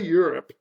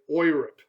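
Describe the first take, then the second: First: The word begins with a 'you' sound. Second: The word begins with an 'oy' sound. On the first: This is the usual way people say it. The speaker calls it right. "we say Europe" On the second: This is not how people say it. The speaker calls it wrong. "we don't say Europe"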